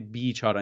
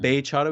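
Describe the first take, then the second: First: The first vowel is a long, dragged ee. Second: The first vowel is a short, open e. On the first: "we would say bichara. We kind of drag the Y more" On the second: "you guys would say bechara"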